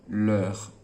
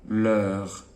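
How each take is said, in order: Both takes have the same delivery.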